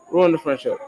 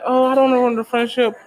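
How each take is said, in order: First: Said in the usual way. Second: High, quick mock worrier; hurried, high-pitched mock hesitation; mock reluctance. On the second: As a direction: imitate someone fretting, pitched up and rushed. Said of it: "it's like".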